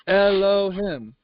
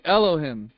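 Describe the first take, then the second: First: Elohim said slowly, syllable by syllable; drawn-out name. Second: Said in the usual way. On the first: Shown as a demonstration. Preacher repeats the name to his listeners, slow and drawn out. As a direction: stretch out each syllable of Elohim.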